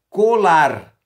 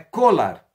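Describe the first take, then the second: First: The stress is on the second syllable. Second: The stress is on the first syllable. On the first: The speaker calls it right. "É colar" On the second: The speaker calls it wrong. "Não é colar"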